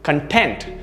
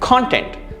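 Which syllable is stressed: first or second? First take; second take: second; first. First: The stress is on the second syllable. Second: The stress is on the first syllable. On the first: It means happy and satisfied. "the pronunciation is stressed towards the second part or the second syllable" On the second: It means stuff that you watch and consume. "the pronunciation stress is there"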